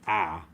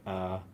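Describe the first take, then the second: First: The vowel is wide open and clearly exaggerated. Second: The vowel is muffled, with the mouth barely open. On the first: The speaker calls it right. "open your mouth and say ah" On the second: The speaker calls it wrong. "you don't want to say like uh"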